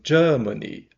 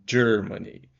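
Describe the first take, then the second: First: British accent, with a long vowel and no R. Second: American accent, with a strong R sound. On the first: "o inglês britânico vai ser um Germany. Ah, prolongado" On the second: "O inglês americano vai ser mais caipira, vai ser um Germany com R de porta"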